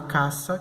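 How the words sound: It is said with a Latin American accent. The word sounds the same as the word for house. "o hispano-americano vai pronunciar"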